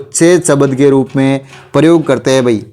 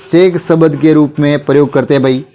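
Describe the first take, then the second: No difference in how they are said.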